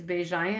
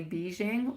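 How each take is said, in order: First: Beijing said as a French name, without the hard final -ing; French surname pronunciation. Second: Beijing said like the city, ending in -ing; common mispronunciation. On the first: Reader giving her own French surname, Beijing with French sounds. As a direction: say "Beijing" the French way, open last syllable. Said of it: "my second name is". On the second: Reader showing how people mispronounce her surname, Beijing with English -ing. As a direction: say "Beijing" as English speakers name the capital. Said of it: "people often say Beijing". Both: Shown as a demonstration.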